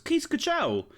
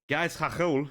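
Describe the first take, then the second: First: The name is said with English-style sounds. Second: The name is said with Dutch-style sounds.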